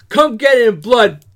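It is read in an angry, aggressive tone. "I want you to say this with some fucking aggression"

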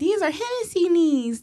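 It is said in a soft, mild way.

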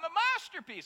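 It is said confidently and proudly.

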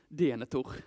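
The name is pronounced with Swedish sounds. The speaker calls it wrong. "uttalade allting på svenska så här"

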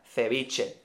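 The c sounds like English th, Spain-style.

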